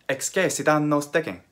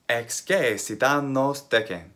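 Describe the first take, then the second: First: It is said at a faster speed. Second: It is said at a normal speed.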